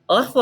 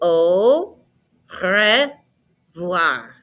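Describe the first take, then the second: First: It is said quickly and clipped. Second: It is said slowly and carefully.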